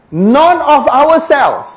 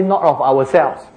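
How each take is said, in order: First: "not of ourselves" slow and high, "not" hit hard; stress on not. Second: Said in the usual way. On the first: Shown as a demonstration. Preacher quoting Paul with a slow, high stress on not. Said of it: "when he say, "Not of ourselves". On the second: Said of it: "when he say".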